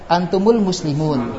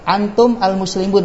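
First: A short u links the m onward. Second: The m ends with no linking vowel.

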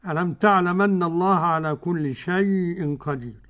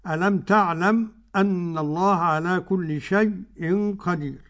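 First: The final m runs straight into the next vowel. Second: A brief silent stop comes before the glottal stop. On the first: "أدي ورش" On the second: "السكت"

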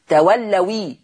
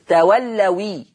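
First: The word ends in a 'wi' syllable. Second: The same.

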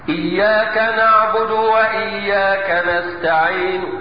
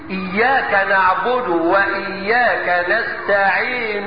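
First: The final n carries only a faint u vowel. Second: The final n carries a full u vowel. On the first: "يسمعه القريب دون البعيد" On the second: "انا معايا ضمة كاملة، اسمعها مني"

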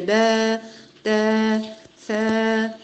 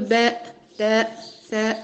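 First: Each long vowel ends without a glottal stop. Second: Each long vowel ends with a glottal stop. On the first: The speaker calls it right. "هي با تا ثا" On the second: The speaker calls it wrong. "لا نقول با تا ثا، هذا خطأ"

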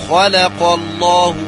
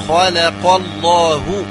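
Both takes have the same delivery.

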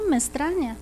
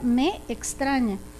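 First: The two words run together as one. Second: The two words are pronounced separately. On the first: "Nosotros decimos me extraña" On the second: "tal y como se escribe realmente"

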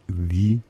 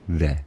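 First: It is said in the long form, before vowels. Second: It is said in the short form, before consonants. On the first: "wenn darauf ein Vokal stoßt" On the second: "im Englischen the"

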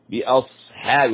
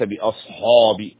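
First: The h and following a sound light. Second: The h and following a sound heavy. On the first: The speaker calls it right. "ثم نأتي للحاء مرققة" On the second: The speaker calls it wrong. "بأصحاب هذا خطأ"

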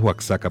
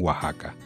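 First: The name is pronounced the non-Mexican way. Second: The name is pronounced the Mexican way. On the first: This is how the speaker's own community says it. "Nosotros pronunciamos Oaxaca" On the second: This is how people in Mexico say it. "pero realmente en México lo pronuncian Oaxaca"

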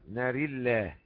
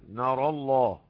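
First: The r and the l are both thin. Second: The r and the l are both thick. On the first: "نقرأها بالترقيق في الراء واللام" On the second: "وتفخيم الراء واللام"

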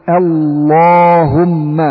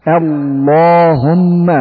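The two takes are said the same way.

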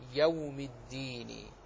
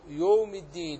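First: The first vowel is a full open a. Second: The first vowel is rounded toward o. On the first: The speaker calls it right. "بفتح الياء وإسكان الواو" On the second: The speaker calls it wrong. "تجد بعض الناس ينطق هكذا"

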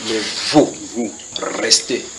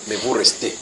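First: There is a pause after vous before restez. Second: It runs on with no pause after vous. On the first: The speaker calls it right. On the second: The speaker calls it wrong.

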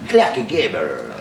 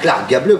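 First: The name is pronounced the English way. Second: The name is pronounced the French way. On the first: The speaker calls it right. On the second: The speaker calls it wrong. "Pas ... comme tu dis si innocemment et si gentiment"

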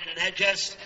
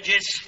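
First: The middle vowel is a, najas. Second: The middle vowel is i, najis. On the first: It is a noun meaning impurity itself. "بفتح الجيم" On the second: It is an adjective describing something impure. "بكسر الجيم"

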